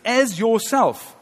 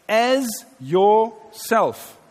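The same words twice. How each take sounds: First: "as yourself" slowed right down, higher, with weight on "as"; stress on as yourself. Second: "as yourself" drawn out very slowly, leaning on "as"; stress on as yourself. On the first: Preacher pointing the church to the missed phrase, stressing "as yourself". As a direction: hammer home "as yourself" slowly. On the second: Preacher reading scripture to the church, stressing "as yourself". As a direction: stretch "as yourself" out and let it land. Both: Shown as a demonstration. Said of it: "the sentence doesn't stop there".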